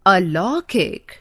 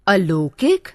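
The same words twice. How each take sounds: First: अलौकिक said slowly with a long "aa" and an open "au"; correct pronunciation. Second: अलौकिक said with a short "ə" and a closed "o"; wrong pronunciation. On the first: Teacher modelling the right form slowly, with an open au. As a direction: say अलौकिक as aa-lau-kik with an open au. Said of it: "शुद्ध". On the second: Teacher showing students the mistaken form, with a short first vowel. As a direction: say अलौकिक as ə-lokik. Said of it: "अशुद्ध". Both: Shown as a demonstration.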